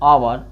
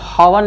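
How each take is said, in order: First: The word starts with a vowel, no h sound. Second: The word starts with an audible h sound. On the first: The speaker calls it right. "इसको क्या बोला जाता है" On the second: The speaker calls it wrong. "इसको कब हावर नहीं बोल"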